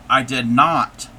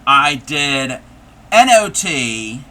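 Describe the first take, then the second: First: Said in the usual way. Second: I did then N O T spelled letter by letter, louder and slow. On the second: Shown as a demonstration. Crafter spelling the pun for chat, letters spelled out. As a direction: spell out N O T, one letter at a time. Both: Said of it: "comma, K N O T".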